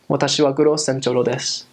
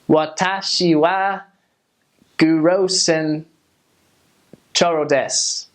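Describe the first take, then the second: First: Spoken with a muted, naturally spaced, flowing rhythm. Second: Spoken with a stiff, choppy, heavily pronounced rhythm. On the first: It sounds like someone who has lived in the country for a while. The speaker calls it right. "the more like Japanese way" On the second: It sounds like someone who has only just started learning. The speaker calls it wrong. "that's kind of a weird rhythm"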